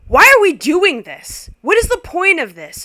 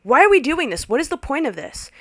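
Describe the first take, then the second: First: Loud, high outburst; scream. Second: Slightly less loud, high repeat; repeated outburst. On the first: Guest screams at the family Seder. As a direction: yell it at the table. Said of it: "screams out loud". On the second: Guest repeats it at the father. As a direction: fling it back at him. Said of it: "looked at him and was like". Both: Retold or imitated.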